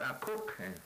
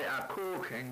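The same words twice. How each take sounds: First: The word is said short and clipped. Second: The word is drawn out and long. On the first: The speaker calls it right. "Just very kind of short" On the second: The speaker calls it wrong. "You don't say a cooking"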